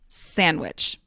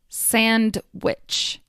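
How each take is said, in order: First: The D sound is dropped from the word. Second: Every sound, including the D, is clearly pronounced. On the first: "The D in sandwich often disappears" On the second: "I enunciated each word, meaning I carefully pronounced each sound"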